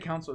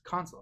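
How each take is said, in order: First: It is said like the word council. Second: It is said with a long o vowel. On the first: The speaker calls it wrong. "I used to say council. It was weird" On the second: The speaker calls it right. "It's console"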